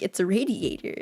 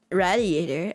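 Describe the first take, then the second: First: Said in the usual way. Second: RADIATOR said the speaker's own nonstandard way; own odd pronunciation. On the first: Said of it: "And they're like". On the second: Retold or imitated. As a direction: say "Radiator" with the odd, mispronounced first vowel. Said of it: "What the fuck did you just say?".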